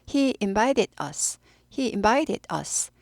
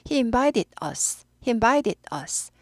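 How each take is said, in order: Both takes have the same delivery.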